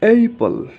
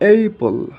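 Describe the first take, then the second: No difference in how they are said.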